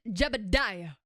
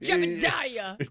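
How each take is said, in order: First: The name is said calmly and smoothly. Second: The name is yelled angrily in a low voice.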